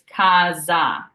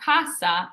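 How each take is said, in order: First: The middle consonant is a buzzing Z sound. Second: The middle consonant is a hissing S sound. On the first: The speaker calls it right. "which makes it a Z sound" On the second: The speaker calls it wrong. "it's not casa"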